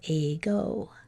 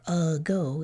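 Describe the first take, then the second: First: The first vowel is a full ay sound. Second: The first vowel is reduced to a weak uh. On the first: The speaker calls it right. "saying the vowel sound correctly in an open syllable" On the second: The speaker calls it wrong. "we add this uh instead of saying the vowel sound correctly"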